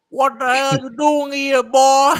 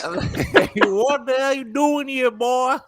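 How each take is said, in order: First: Much higher, louder, slow country challenge; mock aggressive country homeowner; aggressive country accent. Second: Put-on much higher, very slow country accent breaking into laughs; redoing the country homeowner, cracking up; country accent through laughter. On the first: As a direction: confront the stranger in a thick country accent. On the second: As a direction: laugh while doing the country voice. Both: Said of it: "country ass accent".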